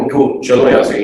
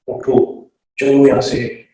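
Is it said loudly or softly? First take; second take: loudly; softly. First: It is said loudly and sharply. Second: It is said softly and quietly.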